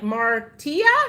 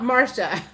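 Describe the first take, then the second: First: The middle consonant is a 't' sound. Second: The middle consonant is an 'sh' sound. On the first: The speaker calls it right. "it's pronounced like Martia" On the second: The speaker calls it wrong. "not Marcia"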